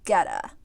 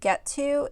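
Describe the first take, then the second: First: The word 'to' is reduced and blended into 'getta'. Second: The word 'to' is pronounced fully and clearly. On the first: The speaker calls it wrong. "it's getta. Like getta is not a word" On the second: The speaker calls it right. "instead of get to"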